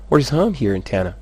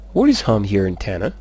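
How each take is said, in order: First: "Where is home here in Tana?" with a raised peak on "home"; varied intonation. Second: "Where is home here in Tana?" level, rising at the end; varied intonation. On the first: Teacher shows a tune option, "home" peaking high. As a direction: lift "home", then come down through "here in Tana". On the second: Teacher shows another tune, "Tana" rising at the end. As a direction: keep it even, then lift "Tana" as a question. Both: Shown as a demonstration. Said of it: "afaka miovaova ny intonation".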